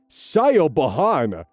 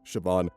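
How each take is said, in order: First: The name is sounded out letter by letter. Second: The name is said in its usual form. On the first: The speaker calls it wrong. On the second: The speaker calls it right.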